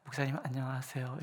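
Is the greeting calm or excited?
calm. It is a plain, calm, polite greeting.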